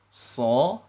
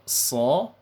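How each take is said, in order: The two takes are said the same way.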